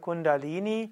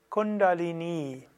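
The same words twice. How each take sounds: First: The final vowel is short and the consonants are plain. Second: The final vowel is long and the consonants are retroflex. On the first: The speaker calls it wrong. "Auch wenn oft gesagt Kundalini" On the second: The speaker calls it right. "eigentlich wäre es korrekt Kundalini"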